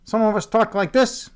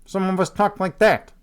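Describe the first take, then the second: First: Higher-pitched take on a Chicago accent. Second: Another mock Chicago accent, near usual pitch. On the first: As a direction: play one sort of Chicago talker, pitched up. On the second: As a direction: play the other sort of Chicago talker. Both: Shown as a demonstration.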